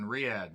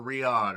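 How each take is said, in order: First: "Riyadh" as ree-AA, flat A as in "cat"; first attempted pronunciation. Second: "Riyadh" as ree-AHD; alternative pronunciation. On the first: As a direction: say "Riyadh" with a "cat" vowel and hardly any final D. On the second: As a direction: say "Riyadh" with an open "ah" and a clear final D. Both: Real, not acted. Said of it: "however the hell you say it".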